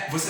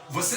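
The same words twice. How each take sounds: First: Slow você with closed final ê; closed vowel. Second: Você wrongly ending in open é, vocé; wrongly open vowel. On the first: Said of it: "quando o timbre é fechado". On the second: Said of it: "você não fala você". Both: Shown as a demonstration.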